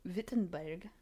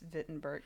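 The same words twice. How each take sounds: First: The name is pronounced with English sounds. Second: The name is pronounced with German sounds. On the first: The speaker calls it wrong. "That was awful" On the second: The speaker calls it right. "It's written in English as Wittenberg, yeah. But it's Wittenberg"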